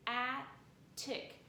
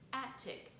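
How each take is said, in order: First: Two separate syllables, each with its own T. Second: One blended word with a single T sound.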